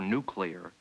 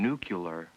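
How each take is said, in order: First: The sounds come in their standard order. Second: Two sounds in the word are swapped. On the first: The speaker calls it right. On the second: The speaker calls it wrong.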